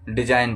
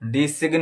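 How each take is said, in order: First: The g sound is silent in the word. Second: A g sound is pronounced in the word. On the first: The speaker calls it right. "इसको डिजाइन पढ़ा जाएगा" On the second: The speaker calls it wrong. "डिसिग्न नहीं पढ़ा जाएगा"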